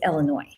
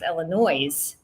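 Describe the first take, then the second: First: The final s sound is left silent. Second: The final s sound is pronounced. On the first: The speaker calls it right. "It's Illinois. ... the S is dropped off of that word" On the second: The speaker calls it wrong. "Illinois is not pronounced Illinois"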